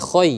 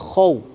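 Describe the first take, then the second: First: The syllable ends with an 'oy' sound. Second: The syllable ends with an 'aw' sound. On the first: The speaker calls it wrong. "bukan khoy" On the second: The speaker calls it right. "tapi khaw"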